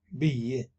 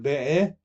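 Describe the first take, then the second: First: The word ends on a plain 'ee' sound. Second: The word ends with an extra 'ah' syllable. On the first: The speaker calls it right. "فهنا نقول بي" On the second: The speaker calls it wrong. "ما نقول بئة"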